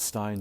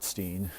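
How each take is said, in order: First: The vowel sounds like 'eye'. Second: The vowel sounds like 'ee'. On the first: The speaker calls it right. "the correct way to pronounce. It's Stein" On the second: The speaker calls it wrong. "not Steen"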